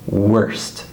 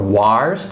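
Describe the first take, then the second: First: The vowel sounds like 'er'. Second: The vowel sounds like 'ar'. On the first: The speaker calls it right. "we say worst" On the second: The speaker calls it wrong. "or warst"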